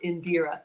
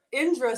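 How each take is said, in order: First: "Indira" as in-DEER-uh, three syllables; corrected name pronunciation. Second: "Indra" said as two syllables, IN-druh; stumbling first try at "Indra", IN-druh; mispronounced name. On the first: Shown as a demonstration. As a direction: stress the long DEE in "Indira". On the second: Real, not acted. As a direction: say "Indra" without the middle DEER syllable. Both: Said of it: "She says it's pronounced Indira".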